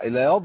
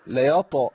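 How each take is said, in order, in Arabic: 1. تُنطق الكلمة بصوت الضاد. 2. تُنطق الكلمة بصوت الطاء.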